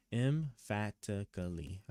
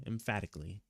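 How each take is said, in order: First: "Emphatically" drawn out slowly, syllable by syllable; sounding out. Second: Said in the usual way. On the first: Shown as a demonstration. Streamer checking a word's pronunciation, slowly sounding out "Emphatically". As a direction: sound out "Emphatically" slowly as em-FAT-uh-kuh-lee. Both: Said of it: "how you actually pronounce it".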